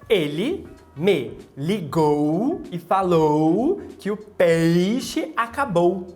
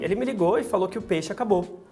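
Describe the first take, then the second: First: The diphthongs are pronounced fully with two vowel parts. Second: The diphthongs are reduced to single vowels.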